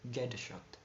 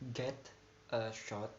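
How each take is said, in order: First: The t links smoothly into the following vowel. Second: The t is clearly released before the vowel. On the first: "after assimilation and in a rapid speech" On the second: "in a normal sound"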